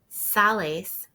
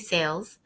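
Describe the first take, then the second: First: It is said with Spanish vowels, two syllables. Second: It is said like the English word, one syllable. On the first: The speaker calls it right. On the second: The speaker calls it wrong.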